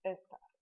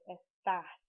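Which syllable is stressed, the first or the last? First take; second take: first; last. First: The stress is on the first syllable. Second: The stress is on the last syllable. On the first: It is the word meaning 'these'. "as opposed to" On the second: It is the verb form meaning 'you are'. "in the verb star you have an accent on the A"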